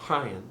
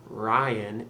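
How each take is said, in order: First: "Ryan" with a breathy, slightly rolled R; French-accented "Ryan", R almost breathed. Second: Said in the usual way. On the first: Shown as a demonstration. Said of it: "roll it a little bit and keep it breathy". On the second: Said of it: "So it's not Ryan".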